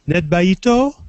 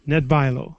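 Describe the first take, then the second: First: A T sound comes before the final vowel. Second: An L sound comes before the final vowel. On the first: The speaker calls it wrong. "I crossed the L" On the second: The speaker calls it right. "it's an L"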